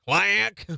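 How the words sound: It is said in a Southern US accent.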